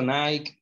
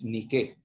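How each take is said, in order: First: The name is said the English way, not as spelled. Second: The name is said just as it is spelled. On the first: The speaker calls it wrong. "está mal dicho Nike" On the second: The speaker calls it right. "hay que pronunciarlo como es, Nike"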